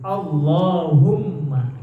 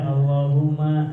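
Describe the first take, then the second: First: The doubled l and m are pressed and held long. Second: The doubled l and m are light and short. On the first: The speaker calls it right. "tasydidnya pada huruf lam, wal mimi dan huruf mim. Allahumma gitu" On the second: The speaker calls it wrong. "nggak boleh Allahumma. Ah itu tuh kurang digentak"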